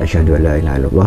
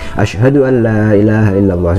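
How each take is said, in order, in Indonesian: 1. Frasa itu diucapkan dengan pelan. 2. Frasa itu diucapkan dengan keras. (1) "kita baca dulu dua syahadatnya secara pelan" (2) "baru keras"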